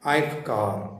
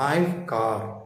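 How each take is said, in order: No difference in how they are said.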